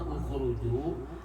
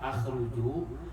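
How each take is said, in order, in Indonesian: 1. Kata ini diawali dengan vokal u. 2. Kata ini diawali dengan vokal a. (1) "dibaca dhammah" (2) "dibaca fathah"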